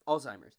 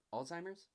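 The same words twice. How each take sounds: First: "Alzheimer's." said firmly with a falling tune; settled statement. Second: "Alzheimer's?" asked with a rising tune; unsure questioning. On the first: Confirming the word after checking it, "Alzheimer's." falling and firm. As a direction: land "Alzheimer's" flat and sure, dropping at the end. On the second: Checking the word mid-sentence, "Alzheimer's?" rising and unsure. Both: Shown as a demonstration. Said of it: "is consumed by Alzheimer's".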